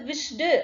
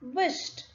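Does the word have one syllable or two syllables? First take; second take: two syllables; one syllable. First: The ending is a separate 'ed' syllable. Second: The ending is a short t sound. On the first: The speaker calls it wrong. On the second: The speaker calls it right.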